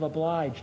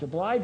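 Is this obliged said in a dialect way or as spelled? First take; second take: dialect; as spelled. First: It is said in an older, non-spelling dialect way. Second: It is said the way the spelling suggests. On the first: "a common pronunciation" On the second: "a spelling pronunciation, which is secondary"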